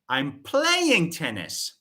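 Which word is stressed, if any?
playing. The verb is said louder than the rest. It answers what is being done. "I'm shifting the focus on the verb play"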